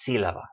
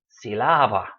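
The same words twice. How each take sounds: First: The stress is on the first syllable. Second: The stress is on the second syllable. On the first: The speaker calls it right. "It's sílaba" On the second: The speaker calls it wrong. "It should be sílaba, but it's not"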